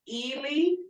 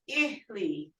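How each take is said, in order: First: The vowels are long e sounds. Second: The vowels are short i sounds. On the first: It means dead. "you see E, Lee, E sounds" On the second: It means foot or leg. "because it's the two short I sounds"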